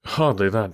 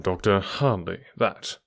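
First: Blandest voice. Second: Slow, smooth and unbothered; a hint of bland, easy calm, slower; blandest voice. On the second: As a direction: let it slide out calmly, slower. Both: A narrator's reading. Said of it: "said Holmes in his blandest voice".

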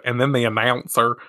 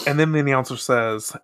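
First: Said in the usual way. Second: Slipping into a Southern accent; Southern accent on the narration. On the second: Real, not acted. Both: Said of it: "I sounded so Southern".

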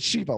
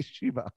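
First: "Shiva" with a short i, SHIH-vah; "Shiva" as the Jewish word, short first vowel; pronunciation of Shiva. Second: "Shiva" with a long ee, SHEE-vah; mock-rejected "Shiva", first vowel drawn as ee; rejected pronunciation of Shiva. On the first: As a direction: say "Shiva" the way you normally pronounce it, as in the Jewish mourning week. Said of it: "I also pronounce it". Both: Shown as a demonstration.

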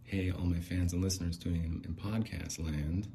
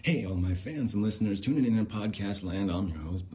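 First: Lightly voiced podcast greeting, easy level; podcast host voice. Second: Big, loud show-opener greeting; podcast host voice. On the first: Shown as a demonstration. Prompting Bling with the lines, understated podcast host voice. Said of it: "do the voice". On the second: Pretend. Performing the lines for the viral video, loud podcast host voice. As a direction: belt it out like a hammy host. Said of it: "Let me warm up a little bit".

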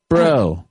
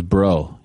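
First: Said in the usual way. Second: Laid-back surfer "Bro." drawled low; surfer dude. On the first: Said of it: "I like the way he says". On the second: Retold or imitated. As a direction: imitate a surfer saying "Bro.". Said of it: "He sounds like a surfer dude".

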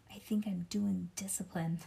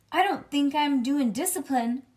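First: Put-on soft, subdued child's reply; kind of quiet. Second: Put-on loud, high child's protest; not quiet. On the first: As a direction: say it quietly, holding back. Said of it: "let's say it quiet". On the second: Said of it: "Oh, maybe, let's say it quiet".

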